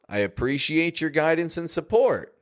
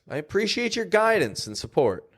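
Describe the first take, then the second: First: The word support carries the main emphasis. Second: The word guidance carries the main emphasis. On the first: "The word support is being emphasized here" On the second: "We could also emphasize guidance"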